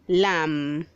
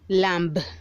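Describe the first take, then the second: First: There is no final B sound. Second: A final B sound is pronounced. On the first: The speaker calls it right. "The B is silent" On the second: The speaker calls it wrong. "Don't say lamb"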